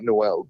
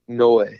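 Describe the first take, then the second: First: The name ends with an L sound. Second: The name ends on a vowel sound. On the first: The speaker calls it wrong. "it's not Noel" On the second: The speaker calls it right. "it's N O E, Noe"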